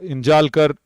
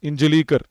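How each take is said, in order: First: The name is said with three syllables. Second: The name is said with four syllables. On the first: The speaker calls it wrong. "I was mentioning Rahul's name as uh" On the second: The speaker calls it right. "so it's Injalikar"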